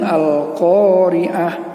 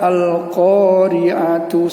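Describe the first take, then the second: First: The word ends with a soft h sound. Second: The word ends with a t and u vowel. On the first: The reader stops at this word. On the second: The reading continues without a stop.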